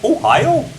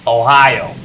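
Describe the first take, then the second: First: It is said in a Wisconsin accent. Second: It is said in a New York accent. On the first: "in Wisconsin or something, it's like Ohio" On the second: "something like Ohio in New York"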